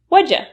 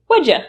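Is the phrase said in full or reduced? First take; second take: reduced; reduced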